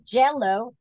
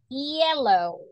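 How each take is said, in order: First: It starts with a heavy J-like sound. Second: It starts with a light Y-like sound. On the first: The speaker calls it wrong. "if you say jello, that is heavy" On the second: The speaker calls it right. "To say yellow"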